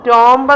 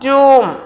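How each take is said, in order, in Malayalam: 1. അവസാനത്തെ b ശബ്ദം ഉച്ചരിക്കുന്നു. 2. അവസാനത്തെ b ശബ്ദം നിശ്ശബ്ദമാണ്. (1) "ടോംബ് എന്നല്ല" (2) "കറക്റ്റ് പ്രൊനൗൺസിയേഷൻ ഈസ് ട്യൂം"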